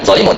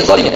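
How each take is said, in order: First: "zolimun" ending in -un; wrong -un ending. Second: "zolimin" ending in a long -in; correct -in ending. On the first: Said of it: "bukan zolimun". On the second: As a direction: say "zolimin" with -in, not -un. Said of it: "tapi zolimin". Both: Shown as a demonstration.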